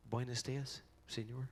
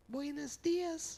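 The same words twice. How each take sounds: First: Said in the usual way. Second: Very high, drawn-out falsetto; slow greeting way up in falsetto; odd squeaky greeting voice. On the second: Retold or imitated. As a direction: imitate a friend's involuntary high-pitched greeting. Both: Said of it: "Why do I do that with my voice".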